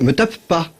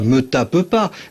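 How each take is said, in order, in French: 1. La double consonne est tenue avec un petit silence. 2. Les consonnes s'enchaînent, sans aucun silence entre elles. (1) "vous dites me tape pas" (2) "vous dites pas me tape pas"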